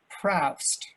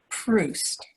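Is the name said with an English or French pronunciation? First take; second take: English; French. First: The name is said as an English reading. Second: The name is said the French way. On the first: The speaker had only seen the name written. The speaker calls it wrong. "who'd only read the name, never heard it pronounced" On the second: This is how the name is really pronounced. The speaker calls it right. "the actual pronunciation"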